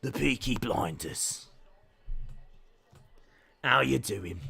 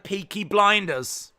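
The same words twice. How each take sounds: First: Put-on Birmingham accent, pitched lower. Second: Said in the usual way. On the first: Streamer playing up family's Birmingham roots, Birmingham accent. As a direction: do a low, softer Peaky Blinders Birmingham accent. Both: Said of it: "trying to put the accent on".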